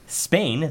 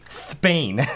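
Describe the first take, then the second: First: The word begins with a plain s sound. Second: The word begins with a lisped th sound. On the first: "instead of saying Spain" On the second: "pronounced the letter S with like a TH, like a th sound"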